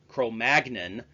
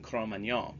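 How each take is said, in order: First: It is said the English way, with hard G. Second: It is said the French way, without hard G. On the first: The speaker calls it wrong. "The more common English pronunciation with a hard G" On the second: The speaker calls it right. "the true French pronunciation"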